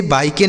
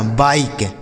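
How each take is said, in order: First: "बाइके" as baa-i-ke; voiced final E. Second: "बाइक" ending on k, falling; silent final E. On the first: Teacher warns pupils off this reading, "बाइके" with final e sounded. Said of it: "इसे बाइके नहीं पढ़ना". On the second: Teacher corrects the misreading for pupils, "बाइक" ending on k. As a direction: say "बाइक" with no e after the k. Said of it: "इसका उच्चारण हमें नहीं". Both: Shown as a demonstration.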